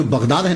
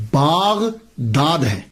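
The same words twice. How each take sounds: First: Said in the usual way. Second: باغداد with a long drawn "baa" at the start; باغداد spoken very slowly, a long first vowel; original pronunciation. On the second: Shown as a demonstration. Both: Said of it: "اصل میں اس کا pronunciation".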